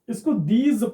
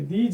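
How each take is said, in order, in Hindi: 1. इस शब्द का अंत एक गूँजने वाली 'z' आवाज़ से होता है। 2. इस शब्द का अंत 'j' की आवाज़ से होता है। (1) "इसको दीज पढ़ेंगे" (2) "दीज नहीं पढ़ेंगे"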